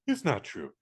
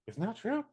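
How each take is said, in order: First: "It's not true" falling as a plain statement; settling statement. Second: "It's not true" high and rising as a question; questioning echo. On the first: Dad answering daughter about rumors, "It's not true" falling as a statement. Retold confrontation, firm answer. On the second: Daughter confronting dad over rumors, "It's not true" rising as a question. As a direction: ask "It's not true" softly, pitch climbing on "true". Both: Retold or imitated.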